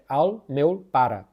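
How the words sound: The first and final vowels sound like a. "Catalunha Norte é"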